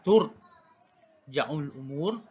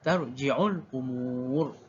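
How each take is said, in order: First: The first word begins 'tur' and has 'ja'. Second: The first word begins 'tar' and has 'ji'. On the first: "yaitu baca baris depan huruf ta" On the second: "baca bagi atas huruf ta dan juga baris bawah huruf jim"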